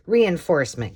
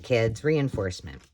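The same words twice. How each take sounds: First: Called out loud and higher. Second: Said in the usual way. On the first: Shown as a demonstration. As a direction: announce the word to the kids.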